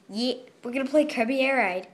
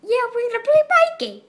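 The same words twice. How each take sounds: First: Said in the usual way. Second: Much higher, louder, fast squeaky mockery. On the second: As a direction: squeak it out fast in a silly high voice. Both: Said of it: "repeats line in put-on voice".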